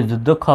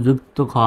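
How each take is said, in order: First: "যুদ্ধ খ" said with a dd sound, as many wrongly say it; common wrong pronunciation. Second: "যুক্ত খ" said with a clear "ক্ত" as in joined; correct pronunciation. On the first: Teacher shows students the common wrong way, with "যুদ্ধ" pronounced. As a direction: say "যুদ্ধ খ" the common mistaken way, with a hard "দ্ধ". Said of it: "আমরা অনেকে যুদ্ধ খ বলি". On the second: Teacher gives students the correct pronunciation of "যুক্ত খ". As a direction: give "যুক্ত খ" the correct "kt" sound, not "যুদ্ধ". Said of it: "এটা সঠিক উচ্চারণ হলো যুক্ত খ". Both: Shown as a demonstration.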